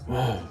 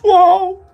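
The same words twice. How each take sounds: First: It is soft, understated, like a breath out. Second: It is loud and emphatic, with a voice crack. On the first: "really understated... just kind of like a breath out" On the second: "Not like the [name]"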